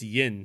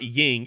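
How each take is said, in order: First: The word ends with an n sound. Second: The word ends with an ng sound. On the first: The speaker calls it right. "it's yin, silly" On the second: The speaker calls it wrong. "It's not ying"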